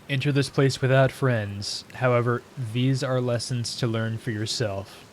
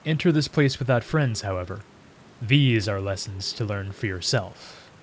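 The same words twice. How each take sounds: First: The pause comes before 'however', joining it to what follows. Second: The pause comes after 'however', ending the first sentence. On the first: The speaker calls it wrong. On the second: The speaker calls it right.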